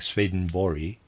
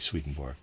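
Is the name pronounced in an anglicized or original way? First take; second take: original; anglicized. First: The name is said in its original pronunciation. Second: The name is said in an everyday English pronunciation. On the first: "properly pronounced something like Swedenborg" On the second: "I'm going to pronounce it in the regular way"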